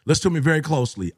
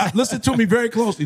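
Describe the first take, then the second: First: Urgent repeat. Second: Fast, pressing appeal; urgent call to listen. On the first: Speaker repeating his warning to men, fast and firm. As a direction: hammer it home quickly. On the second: Speaker urging the men in the audience, quick and insistent. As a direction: rush it, demand attention. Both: Real, not acted. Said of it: "This is to all my men".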